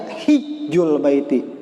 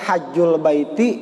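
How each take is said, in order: First: The first vowel of the word is 'i'. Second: The first vowel of the word is 'a'. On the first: "bisa dibaca hijjul baiti" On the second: "Ini bisa dibaca hajjul baiti"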